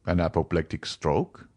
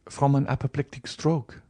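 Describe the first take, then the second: First: Lower, rising question from the doctor; the doctor echoes the news in a lower, questioning voice; doctor repeating. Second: Put-on higher, grieving young woman stating it; Valentine answering. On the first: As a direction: echo it back in a lower, doubtful voice. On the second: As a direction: Valentine says it gently and sadly, higher. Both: A narrator's reading. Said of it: "repeated the doctor".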